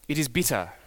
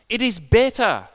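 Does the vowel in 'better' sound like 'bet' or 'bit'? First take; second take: bit; bet. First: Said in a New Zealand accent, vowel like 'bit'. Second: Said in a plain accent, vowel like 'bet'. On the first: The speaker calls it wrong. "we think Jesus had a New Zealand accent" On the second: The speaker calls it right. "But it's not bitter, it's better"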